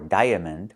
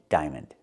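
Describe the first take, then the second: First: The first part has two separate vowel sounds. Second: The first part has one long I sound. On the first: The speaker calls it wrong. "We don't say diaper or diamond" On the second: The speaker calls it right. "One vowel, one sound, I"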